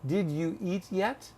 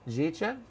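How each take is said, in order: First: Each word is said fully and separately. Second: The words are squeezed together into one short word. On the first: The listener is not a native speaker. "knowing that you're not a native speaker of English, I would say probably to you" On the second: The listener is treated as a native speaker. "speak like you would to a native speaker"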